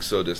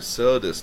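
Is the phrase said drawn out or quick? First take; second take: quick; drawn out. First: The phrase is said short and quick. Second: The first vowel is lengthened and drawn out. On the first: The speaker simply agrees that it is so. "if you just say it real quickly" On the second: The speaker is still thinking about it. "if you kind of linger on the a part"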